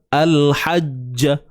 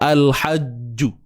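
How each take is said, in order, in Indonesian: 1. Bunyi j terakhir diikuti vokal a. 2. Bunyi j terakhir diikuti vokal u. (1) "Ja, bunyi ja kan?" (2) "Kita jelaskan bunyi ju tu, tak mau"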